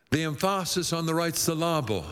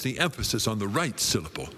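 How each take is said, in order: First: "emphasis" said em-FAH-sis, "syllable" said sil-LAH-ble; misplaced syllable stress. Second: Said in the usual way. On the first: Shown as a demonstration. Preacher jokes about belabored emphasis, comically stressing second syllable of "emphasis" and "syllable". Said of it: "It puts the emphasis on the right syllable". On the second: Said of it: "not the wrong syllable".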